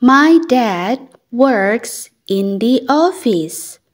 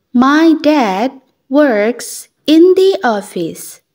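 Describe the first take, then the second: No difference in how they are said.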